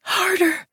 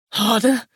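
First: Much higher-pitched, breathy cry; urgent demand. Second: Lover's voice, at ordinary pitch; questioning echo. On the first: Woman making a demand of her lover, high urgent cry. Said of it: "a demand that scalded my cheeks". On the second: Man checking his lover's demand, questioning echo. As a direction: echo the word back as a question. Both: A narrator's reading.

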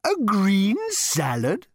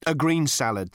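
First: Much higher, slow, scornful rising A green salad; disapproving cow. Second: A green salad firmly, green stressed; man firmly ordering a green salad; emphatic. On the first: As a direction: sneer at the order like a cow. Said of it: "rolling his eyes disapprovingly". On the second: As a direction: put your foot down on green salad. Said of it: "said Arthur emphatically". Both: A narrator's reading.

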